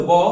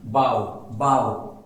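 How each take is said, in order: First: बॉ with a single o vowel; rounded o in बॉ, no "ow" glide; pronounced boh. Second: बाव with an "ow" glide, slow and low; drawn-out, lower-pitched बाव, twice; pronounced bow as bending. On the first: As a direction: say बॉ as in the archer's bow. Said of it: "बॉ मतलब होता है धनुष". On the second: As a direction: say बाव to rhyme with cow. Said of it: "बाव मतलब होता है झुकना". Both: Shown as a demonstration.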